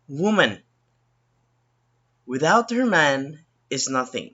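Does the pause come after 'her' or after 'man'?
man. The pause comes after the word man. "That's how the first sentence would uh, sound like"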